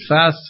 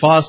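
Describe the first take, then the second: First: Fast is said in an American accent. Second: Fast is said in a non-American accent. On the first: This is how the listener says it. "you may say fast" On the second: This is how the speaker says it. "if my accent isn't conforming to the American accent"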